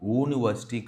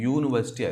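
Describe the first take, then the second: First: It begins with a plain oo vowel sound. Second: It begins with a y consonant sound. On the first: The speaker calls it wrong. "కాదు" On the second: The speaker calls it right. "యూనివర్సిటీని మనము యూతో పలుకుతాం"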